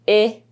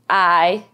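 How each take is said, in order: First: The vowel is said with its short sound. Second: The vowel is said with its long sound. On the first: "They can make the short sound" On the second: "or they can make a long sound"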